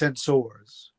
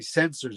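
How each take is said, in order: First: The word is said the odd Spock-like way. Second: The word is said the ordinary everyday way. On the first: "it goes sensors" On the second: "Spock would never say sensors"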